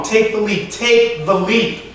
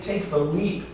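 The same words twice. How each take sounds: First: High, emphatic command, slowing on the repeat; strong boyhood voice. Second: Quiet, much softer poetic prompt; soft urging. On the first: Boy he was urging the motionless man, strong command. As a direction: urge it strongly, stretching out the last time. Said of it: "His voice is loud and strong". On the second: Wind telling the poet to step off, soft urging. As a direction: urge it gently, lifting at the end. Wind's urging inside poem. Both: Acted.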